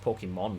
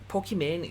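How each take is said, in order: First: The name ends with a 'mon' sound. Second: The name ends with a 'mane' sound. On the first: This is reportedly how it is supposed to be said. "you're supposed to pronounce it as Pokemon still" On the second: This is how the speaker personally says it. "Pokimane is how I pronounce it"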